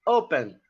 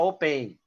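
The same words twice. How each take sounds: First: "open" stressed as O-pen; stress on first syllable. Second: "open" wrongly stressed as o-PEN; stress on second syllable. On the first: Teacher showing students the correct pronunciation, "open" stressed on the first syllable. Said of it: "a sílaba forte é a primeira sílaba". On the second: Teacher showing students how not to pronounce it, "open" stressed on the last syllable. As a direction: say "open" with the weight on the final "pen". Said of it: "a sílaba tônica". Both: Shown as a demonstration.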